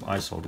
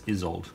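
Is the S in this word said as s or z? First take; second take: s; z. First: The S is said as an s sound. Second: The S is said as a z sound. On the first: The speaker calls it wrong. "instead of Isolde" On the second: The speaker calls it right. "it's a like a z sound on the S"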